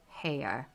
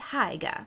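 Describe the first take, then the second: First: The second syllable has no g sound. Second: The second syllable starts with a hard g. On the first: It is said the way the text instructs. The speaker calls it right. "he pronounced it so as to rhyme with mayor" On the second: It is read as it is spelled. The speaker calls it wrong. "it looks like Hyga"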